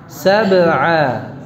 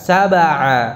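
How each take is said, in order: First: The b is held closed before the vowel. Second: The b runs straight into the vowel. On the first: The speaker calls it right. "rahangnya jangan buka dulu... baru terbuka ketika mengucapkan a" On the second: The speaker calls it wrong. "jangan langsung membuka. Sab'a, enggak"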